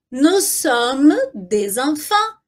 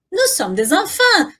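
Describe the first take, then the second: First: Slow, drawn-out model phrase with linked "des enfants"; slow repeat-after-me. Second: Said in the usual way. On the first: Shown as a demonstration. Teacher asking learners to repeat along, slow and measured. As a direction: stretch it out for learners to follow. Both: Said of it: "Repete aí comigo".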